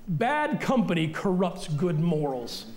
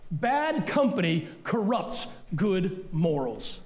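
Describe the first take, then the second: First: Slow, weighty reading of "Bad company corrupts good morals"; slow scripture reading. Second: "Bad company corrupts good morals" repeated even slower, every word weighed; slower emphatic repeat. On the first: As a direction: read the verse out slowly. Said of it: "It's up on the screen". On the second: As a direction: drive the verse home slowly. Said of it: "That's scripture". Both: Shown as a demonstration.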